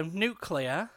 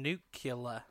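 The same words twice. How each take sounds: First: "nuclear" said slowly as NEW-klee-uh; "nuclear" in the standard three-syllable way, slow and careful; British nuclear. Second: "nuclear" said slowly as NOO-kyuh-luh; "nuclear" with the syllables swapped, soft and slow; nucular mispronunciation. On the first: Asked for the difference, the podcast host gives the correct "nuclear". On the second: Asked for the difference, the podcast host gives the wrong "nuclear". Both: Shown as a demonstration. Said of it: "Can I have the difference again".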